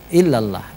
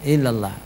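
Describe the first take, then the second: The two takes are said the same way.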